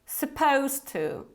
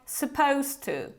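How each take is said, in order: No difference in how they are said.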